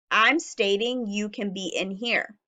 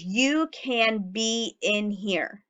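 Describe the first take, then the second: First: Said in the usual way. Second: Slow read sentence. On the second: Shown as a demonstration. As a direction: read it slowly and carefully. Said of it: "My sentence today says".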